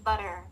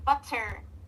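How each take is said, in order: First: The middle T is a soft, quick flap. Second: The middle T is a crisp, fully released T. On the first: The speaker calls it right. "you swap the T with a soft B. Like it will become butter" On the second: The speaker calls it wrong. "instead of T, like butter"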